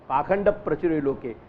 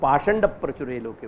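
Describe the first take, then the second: First: The first word is said with a kh sound. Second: The first word is said with an sh sound. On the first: This is the everyday spoken form. "आप बोलचाल में पाखंड बोलो" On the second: This is how Krishna Yajurvedi reciters say it. "हम ख को श बोलेंगे"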